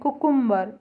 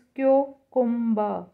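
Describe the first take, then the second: First: The word starts with a plain 'koo' sound. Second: The word starts with a 'kyoo' sound. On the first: The speaker calls it wrong. "हम इसे बोलते हैं कुकुम्बर" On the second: The speaker calls it right. "But it's क्योकुम्बर"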